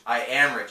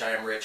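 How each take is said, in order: First: It is said with strong conviction. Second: It is said flatly, by rote.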